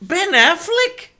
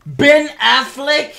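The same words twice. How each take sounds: First: Higher, slow, stretched Ben Affleck?; Affleck? pitched up and stretched; disbelief. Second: Slow, rising incredulous question; can't believe the name; disbelief. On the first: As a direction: drag the name out, appalled. Repeats name in disbelief. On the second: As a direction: Ben Affleck? in stunned disbelief. Incredulous rant at casting news. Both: Real, not acted.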